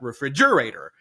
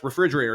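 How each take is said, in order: First: The stress falls on an unusual syllable. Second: The stress falls on its usual syllable. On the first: The speaker calls it wrong. "not refrigerator" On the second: The speaker calls it right. "Seuss writes refrigerator"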